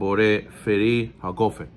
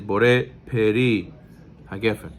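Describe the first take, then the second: First: The second word begins with an f sound. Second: The second word begins with a p sound. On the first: The speaker calls it wrong. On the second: The speaker calls it right. "the proper pronunciation of bracha, according to Sfaradim"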